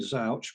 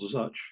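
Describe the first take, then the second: First: The vowel rhymes with couch. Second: The vowel rhymes with touch. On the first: "The most obvious thing ... might be Zouch ... There's also vouch and slouch" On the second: "Touch is an outlier, so you could be called Zuch"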